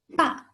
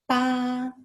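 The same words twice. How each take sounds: First: The pitch falls sharply from high. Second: The pitch stays high and level. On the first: "The last tone, the falling tone" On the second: "the first tone"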